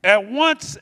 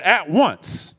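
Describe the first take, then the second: First: "At once" high and rising, pushed hard; stress on once. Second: "At once" with the weight on "At", falling; stress on at. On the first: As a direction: hit "At once" up high to the room. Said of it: "I said". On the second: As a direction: lean on "At" and let it drop. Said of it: "At, I said". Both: Real, not acted.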